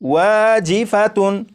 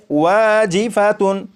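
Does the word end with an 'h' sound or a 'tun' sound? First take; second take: tun; tun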